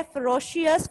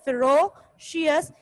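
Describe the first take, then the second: First: Said in the usual way. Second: फेरोशियस said slowly, broken into its syllables; split into syllables. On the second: Shown as a demonstration. Teacher showing students the syllables of फेरोशियस, slowly. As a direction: break फेरोशियस into syllables, slow. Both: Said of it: "ये टू syllables है।".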